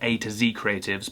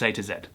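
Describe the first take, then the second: First: The letter Z is said the American way. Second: The letter Z is said the British way. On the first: The speaker calls it wrong. "Alfie did pronounce it" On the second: The speaker calls it right. "you're British, mate. It's A to Z"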